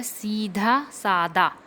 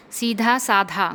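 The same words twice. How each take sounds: First: सीधा सादा with a plain d in सादा; correct pronunciation. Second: सीधा साधा with breathy dh in both words; wrong pronunciation. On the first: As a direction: say सीधा सादा as seedha saada. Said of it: "गलत है, सीधा सादा". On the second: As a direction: say सीधा साधा as seedha saadha. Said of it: "गलत है". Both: Shown as a demonstration.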